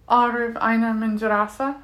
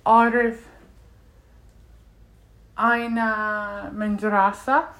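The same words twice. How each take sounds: First: "Arif Aina Mendrasa" run together without a pause; linked words. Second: "Arif", long gap, drawn-out "Aina Mendrasa"; unlinked words. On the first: Learner showing how linking works, words run together. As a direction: join "Arif Aina Mendrasa" into one phrase, rising end. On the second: Learner showing how to say a school sentence, unlinked words. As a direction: pause after "Arif", then slow "Aina Mendrasa". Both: Shown as a demonstration. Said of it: "But if you link it".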